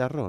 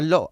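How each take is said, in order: First: The word is said with a rolled R sound. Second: The word is said with an L sound. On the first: The speaker calls it right. "en vez de arroz" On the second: The speaker calls it wrong. "decía al lo en vez de arroz"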